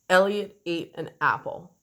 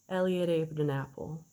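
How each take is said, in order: First: Each vowel starts with a hard, poppy catch. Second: Each vowel starts gently and smoothly. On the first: "They were all glottal. You see how they were kind of poppy and very short?" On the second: "Or even trying to make it even more smooth"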